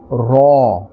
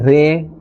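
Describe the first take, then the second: First: The letter is said with a full, thick sound. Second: The letter is said with a thin, light sound. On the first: The speaker calls it right. "but a fuller and a thicker sound" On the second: The speaker calls it wrong. "We will not say Re or Ra"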